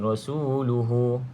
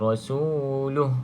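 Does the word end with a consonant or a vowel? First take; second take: vowel; consonant. First: The word ends with a drawn-out final vowel. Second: The word ends short on a bare h sound. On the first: The speaker calls it wrong. "tak perlu panjangkan rasuluhu" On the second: The speaker calls it right. "matikan ha ni, jadi pendek je"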